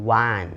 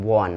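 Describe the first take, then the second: First: "wan" with an open A, like the number one; correct pronunciation of won. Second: "won" with a wrong O vowel, wawn; mispronounced won. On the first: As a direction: say "wan" louder with a clear A vowel, wun. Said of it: "ต้องเป็น". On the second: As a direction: say "won" as the learner's mistake, rounded like wawn. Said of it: "บ่แม่น won นะ". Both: Shown as a demonstration.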